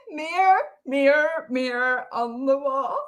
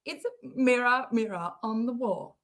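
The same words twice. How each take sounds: First: Higher-pitched "mirror" merged toward one syllable; imitated American pronunciation. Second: Said in the usual way. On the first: Streamer mimicking the clip's mirror on the wall, merged syllables. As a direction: copy the clip's "mirror" with the ending swallowed. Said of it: "do you say mirror like that".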